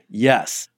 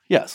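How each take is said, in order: First: It sounds confident and sure. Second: It sounds hesitant and unsure.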